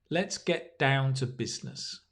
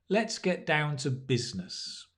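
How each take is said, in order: The two takes are said the same way.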